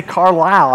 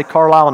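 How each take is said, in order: First: "Carlisle" with a full long "i", Car-LYLE; standard pronunciation. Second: "Carlisle" the Kentucky way, like Car-lall; Western Kentucky pronunciation. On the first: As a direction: say "Carlisle" carefully as Car-lyle, the non-Kentucky way. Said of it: "I can't say Carlisle". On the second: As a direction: let "Carlisle" lose its long "i" to a Kentucky "ah". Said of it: "I say Carlisle now". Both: Shown as a demonstration.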